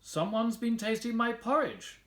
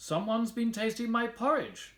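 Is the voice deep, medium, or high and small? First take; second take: medium; medium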